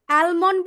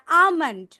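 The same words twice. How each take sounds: First: "আলমন্ড" with the L sounded; wrong pronunciation. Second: "আমন্ড" with no L sound; silent L. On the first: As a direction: say "আলমন্ড" as al-mond. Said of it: "বলি না আমন্ড". ("আলমন্ড"-এ ল উচ্চারণ করে) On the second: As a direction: say "আমন্ড" as aa-mond. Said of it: "L should be". ("আমন্ড"-এ ল ছাড়া উচ্চারণ) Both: Shown as a demonstration.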